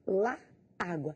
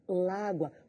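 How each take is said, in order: First: The article and noun are said as separate words. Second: The article and noun merge into one word.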